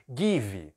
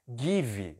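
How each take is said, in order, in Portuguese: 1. É pronunciada do jeito brasileiro. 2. É pronunciada do jeito brasileiro.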